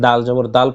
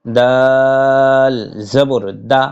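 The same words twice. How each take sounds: First: দাল জবর দাল said fast as the wrong reading; quick wrong version. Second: দাল জবর দা drawn out slowly, ending on plain দা; slow correct recitation. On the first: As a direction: rattle off দাল জবর দাল to show the mistake. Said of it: "পড়বেন না". (ভুল উচ্চারণ দাল জবর দাল, দ্রুত বলা) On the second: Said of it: "দাল জবর দাল পড়বেন না". (দাল জবর দা ধীরে টেনে, শেষে শুধু দা) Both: Shown as a demonstration.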